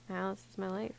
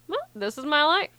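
First: It is said in a sad tone. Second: It is said in a tone that is not sad.

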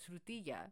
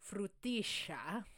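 First: The word is said without an Argentinian accent. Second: The word is said with an Argentinian accent. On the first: The speaker calls it wrong. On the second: The speaker calls it right.

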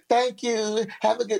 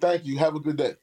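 First: It is said playfully, with smiles and giggles. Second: It is said flatly, with no smiles or giggles. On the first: The speaker is welcoming the compliment's advance. The speaker calls it wrong. "I'm not like women who be trying to do some" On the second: The speaker is only being polite. The speaker calls it right. "say it with no smiles and giggles"

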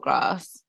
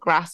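First: The vowel is long, as in 'arse'. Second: The vowel is short, as in 'ass'. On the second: "the ass"

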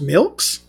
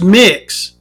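First: The word sounds like 'milks'. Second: The word sounds like 'mix'. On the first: The speaker calls it wrong. "I can't be saying that right" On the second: The speaker calls it right. "It's pronounced mix"

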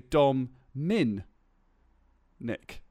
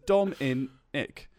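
First: The second syllable starts with an m sound. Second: The second syllable starts with a vowel. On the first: "I put an extra M in my own name" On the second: "I was trying to write out how I would say my name"

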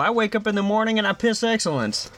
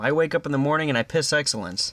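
First: It is said in an imitated character voice. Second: It is said in the speaker's ordinary voice.

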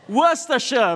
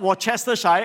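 First: The word is said with three syllables. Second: The word is said with four syllables. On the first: The speaker calls it right. "It's Worcestershire. Very good" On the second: The speaker calls it wrong. "it's not Worcestershire"

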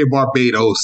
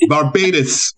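First: It is said with an American pronunciation. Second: It is said with a Bajan pronunciation. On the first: "they never say Barbados" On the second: "They're like, Barbados. ... I didn't know that the O was I"

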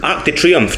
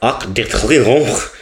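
First: It is said with a plain English accent. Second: It is said with an exaggerated French accent. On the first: The speaker calls it right. "just say it. That's how you would pronounce it in your own language" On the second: The speaker calls it wrong. "People who pronounce French words really Frenchy"

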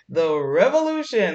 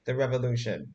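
First: It is said in an excited tone. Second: It is said in a flat, unexcited tone.

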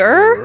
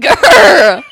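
First: The growl is weak and hesitant. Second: The growl is strong and deep. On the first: The speaker calls it wrong. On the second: The speaker calls it right.

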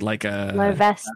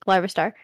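First: The name ends with a 'sta' sound. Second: The name ends with a 'star' sound. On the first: The speaker calls it right. "It's Larvesta" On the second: The speaker calls it wrong. "Is that not how you say it?"

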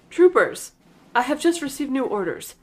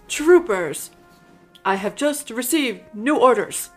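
First: It is said at a quicker pace. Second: It is said very slowly.

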